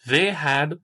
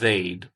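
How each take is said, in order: First: Two full words are said separately. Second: The words merge into one short syllable. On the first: "फुल फॉर्म" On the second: "मुख्तसर सूरत"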